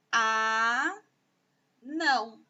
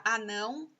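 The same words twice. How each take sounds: First: A long held "a", a pause, then "não"; syllable by syllable. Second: Said in the usual way. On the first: Shown as a demonstration. Teacher dividing anão for pupils, syllable by syllable. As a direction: split "anão" slowly into two syllables. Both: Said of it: "sílaba por sílaba".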